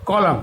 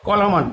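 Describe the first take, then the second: First: "কলাম" ending on m, n silent; proper pronunciation. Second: "কলামান" with the final n sounded; mispronounced column. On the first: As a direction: say "কলাম" with no n after the m. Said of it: "proper প্রনাউন্সিয়েশনটা হচ্ছে". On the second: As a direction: say "কলামান", adding an -an ending after the m. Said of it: "এর উচ্চারণটা এরকম হবে". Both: Shown as a demonstration.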